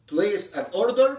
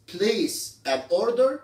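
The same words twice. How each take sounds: First: Said in the usual way. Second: "place an order" drawn out very slowly, word by word; slow pronunciation demo. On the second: Shown as a demonstration. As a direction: stretch out "place an order" for the class. ("place an order" ببطء شديد كلمة كلمة)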